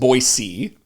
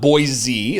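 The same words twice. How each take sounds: First: It uses the local pronunciation. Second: It uses a common outsider pronunciation. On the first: The speaker calls it right. "It's pronounced Boise" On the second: The speaker calls it wrong. "is not Boise"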